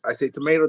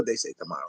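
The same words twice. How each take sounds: First: "tomato" with a long ay in the middle; American pronunciation. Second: "tomato" with a broad ah in the middle; other pronunciation. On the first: Host contrasts his own way of saying the word, "tomato" with an ay. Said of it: "they say tomato". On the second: Host mimics how others say the word, "tomato" with an ah. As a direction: say "tomato" as to-MAH-to, lower and softer. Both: Shown as a demonstration.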